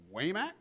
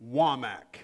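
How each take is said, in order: First: Waymack said as WAY-mack, long a; WAY-mack with a questioning rise; mispronounced name. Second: Wamack said as WAH-mack; WAH-mack, short a, stress on the first syllable; his own last name, said right. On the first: Retold or imitated. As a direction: caller botching the name as WAY-mack. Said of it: "and then they pause". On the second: Shown as a demonstration. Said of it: "My last name is".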